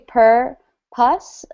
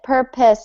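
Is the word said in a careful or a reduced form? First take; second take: careful; reduced. First: Both syllables are said fully and carefully. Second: The word is said quickly with a reduced ending. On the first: "so it's actually per pus" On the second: "is usually how we say it um, just when we're reading and fast"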